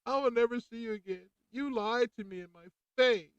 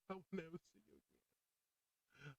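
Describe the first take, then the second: First: High, loud, betrayed cry; hurt outburst. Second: Soft, high, slow and near breaking; choked-up whisper of a farewell; tearful goodbye. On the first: Patient telling off the doctor, hurt and loud. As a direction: let the hurt burst out loud. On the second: Patient leaving the doctor, near tears. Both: Retold or imitated. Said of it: "I kinda cried a little bit".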